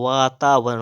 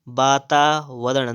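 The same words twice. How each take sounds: First: वातावरण starting with v; rounded v opening वातावरण; correct pronunciation. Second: वातावरण starting with b; closed-lip b opening वातावरण; wrong pronunciation. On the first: Teacher correcting, वातावरण with v. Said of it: "वातावरण होता है". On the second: Teacher showing the error, वातावरण with b. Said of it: "नहीं होता है". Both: Shown as a demonstration.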